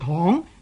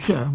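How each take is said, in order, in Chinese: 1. 这个音节读 tong。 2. 这个音节读 soeng。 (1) "唔读做躺" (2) "就读做常"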